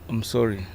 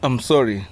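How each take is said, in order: First: It is said softly. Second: It is said loudly.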